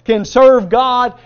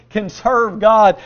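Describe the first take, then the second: First: "serve" loud and drawn out; stress on SERVE. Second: Said in the usual way. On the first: Shown as a demonstration. Preacher pointing the congregation to a key word, stress on "serve". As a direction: lean hard and slowly on the word "serve". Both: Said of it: "I want you to emphasize this word".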